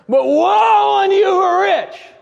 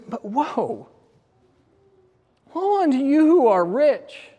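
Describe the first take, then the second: First: It sounds harsh and condemning. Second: It sounds sorrowful and sympathetic.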